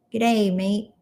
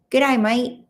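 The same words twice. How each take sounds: First: Lighter Aussie greeting; a hint of Australian on "Good day, mate"; Australian accent. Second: Playful Aussie greeting, pitched up; broad Australian vowels on "mate"; Australian accent. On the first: Streamer repeating the greeting to viewers, light Australian accent. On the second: Acted. Streamer greeting an Aussie viewer, playful Australian accent. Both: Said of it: "You're a natural Aussie".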